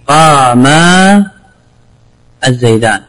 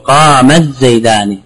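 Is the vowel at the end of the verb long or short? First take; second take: long; short. First: The verb ends in a long vowel. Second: The verb's final long vowel is dropped. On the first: This is the underlying form. "إذا قيل" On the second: This is how it is actually pronounced. "إذا لفظت بهما تقول"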